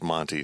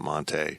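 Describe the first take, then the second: First: The name ends with a short 'tee' sound. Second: The name ends with a stressed 'tay' sound. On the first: The speaker calls it right. "it's Monty" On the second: The speaker calls it wrong. "not Monte"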